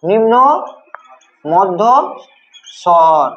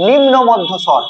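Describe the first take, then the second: First: নিম্ন, মধ্য, স্বর with long pauses between; slow dictation. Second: Said in the usual way. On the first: Shown as a demonstration. Teacher dictates term word by word. (নিম্ন মধ্য স্বর থেমে থেমে)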